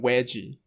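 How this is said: The word starts with a W sound. This is how Indian speakers say it. "但他就讲veggie，就是V 都变成W"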